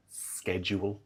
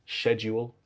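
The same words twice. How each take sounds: First: Schedule said SKED-jool; schedule with a sk sound, soft; American schedule. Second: Schedule said SHED-yool; schedule with a sh sound; British schedule. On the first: Retold or imitated. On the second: Shown as a demonstration.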